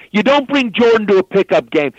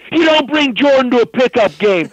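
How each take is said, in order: First: High, heated complaint; imitated angry rant. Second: Even higher and louder, full outrage; escalated angry rant. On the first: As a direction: scold Jay, voice raised. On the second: Retold or imitated. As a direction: repeat it, now losing it completely. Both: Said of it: "he starts cursing".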